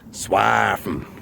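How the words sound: It is said in a Norfolk accent.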